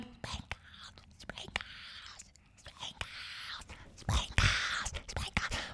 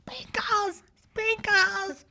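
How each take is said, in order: First: Whispered calls from very far away; barely audible shouting. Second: High, soft faraway calls of a name; mock distant shouting. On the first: Retold or imitated. Teachers heard from up in the clouds, barely audible whisper. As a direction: whisper it like a shout lost in distance. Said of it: "I couldn't hear them. It was more like". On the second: Teachers calling up to a runaway unicorn, mock shouting. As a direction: call out high, as if from far below. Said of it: "the teachers were shouting".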